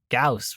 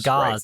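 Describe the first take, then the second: First: It ends with a hissing s sound. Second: It ends with a buzzing z sound. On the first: The speaker calls it right. "Like house" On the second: The speaker calls it wrong. "not like gauze you're wrapping your arms in"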